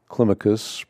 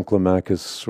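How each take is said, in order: First: "Climacus" stressed on the first syllable, KLIM-uh-kus; "Climacus" with the beat up front on CLIM; proper pronunciation. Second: Said in the usual way. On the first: Shown as a demonstration. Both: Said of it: "properly pronounced".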